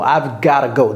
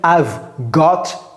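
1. "Got to" est réduit et relié en "gotta". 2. "Got to" se prononce en deux mots pleins. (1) "apprenez à prononcer les mots et les expressions comme ça" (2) "Je n'ai pas dit I've got to go"

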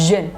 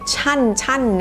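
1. สระเป็นเสียง 'e' สั้น ๆ 2. สระเป็นเสียง 'a' สั้น ๆ (1) "ออกเสียงสระเอะด้วยนะ" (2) "ไม่ใช่ชั่นชั่นนะคะไม่ใช่สระอะนอหนู"

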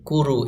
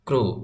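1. একটি স্বরধ্বনি k আর r-কে আলাদা করে। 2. k আর r জোড়া লাগানো, মাঝে কোনো স্বরধ্বনি নেই। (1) "যদি আপনি বলেন কুরু কুরু, এভাবে বললে হবে না" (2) "একসাথে বলতে হবে। দেখুন এভাবে টুগেদার"

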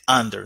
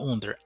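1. La primera vocal suena como 'ah'. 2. La primera vocal suena como 'oo'. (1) "Se dice under" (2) "no under"

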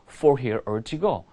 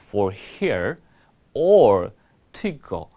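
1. 이 구절은 빠른 속도로 말합니다. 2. 이 구절은 느린 속도로 말합니다. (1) "빨리 말해볼게요" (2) "천천히 얘기할게요"

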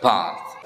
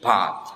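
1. Diucapkan dengan aksen Inggris. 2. Diucapkan dengan aksen Inggris.

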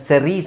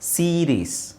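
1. ಮೊದಲ ಸ್ವರ ಸಣ್ಣ 'e' ಶಬ್ದ. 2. ಮೊದಲ ಸ್ವರ ದೀರ್ಘ 'ee' ಶಬ್ದ. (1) "ಇದನ್ನು ಸೆರೀಸ್ ಅಂತ ಹೇಳೋಕ್ಕಾಗಲ್ಲ" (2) "ಇ ಅನ್ನೋದನ್ನು ನಾವು ದೀರ್ಘ ಎಳಿತಾ ಇದ್ದೀವಿ"

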